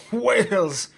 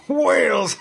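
First: A loud, higher cry of joy; first gleeful whoop, loud but held back; gleeful shout. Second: Much higher, much louder whoop; second whoop, louder and higher; bigger gleeful shout. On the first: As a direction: shout it out, delighted. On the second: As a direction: let the joy burst out even bigger. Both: Acted. Gleeful captain riding whale spout.

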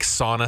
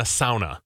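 First: Sauna as "SAW-nuh"; American pronunciation. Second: Sauna as "SOW-nuh"; Finnish pronunciation. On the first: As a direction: open "ah" vowel in sauna. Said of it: "It's like sauna, sauna". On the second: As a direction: sauna with an "ow" diphthong. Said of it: "it's a sauna". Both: Shown as a demonstration.

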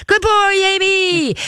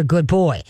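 First: High, drawn-out gushing squeal; hammed-up, high-pitched dog praise; over-excited praise. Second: Said in the usual way. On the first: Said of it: "gets them all nutsy in the headsy". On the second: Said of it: "Remember, don't say".

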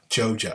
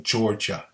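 First: GEORGIA in a Southern accent, first R dropped, like "Joe-juh". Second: Said in the usual way. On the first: Shown as a demonstration. Speaker checking his own pronunciation, Southern accent on GEORGIA. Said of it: "I say Georgia". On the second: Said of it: "Why can't I say Cordell".

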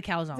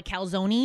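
First: "calzone" as two syllables, "cal-zone"; Jersey way. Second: "calzone" ending in "ee", as "cal-zo-nee"; California way. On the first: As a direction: leave the final E of "calzone" silent. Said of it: "never heard anyone do the E". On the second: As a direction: sound the final E of "calzone". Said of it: "California people call it a calzone". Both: Shown as a demonstration.

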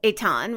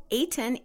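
First: Eitan said "ay-TAHN"; corrected pronunciation. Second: Eitan said "AY-tun"; mistaken pronunciation. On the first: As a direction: give Eitan a full open "ah" in the last syllable. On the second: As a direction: Eitan with a weak, swallowed second vowel. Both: Real, not acted. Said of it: "It's Eitan".

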